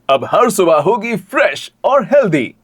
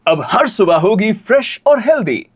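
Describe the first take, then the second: First: The tone shifts on 'fresh and healthy'. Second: The tone stays level on 'fresh and healthy'.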